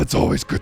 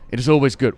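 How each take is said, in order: First: It is said in a gruff Worgen character voice. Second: It is said in the speaker's normal voice.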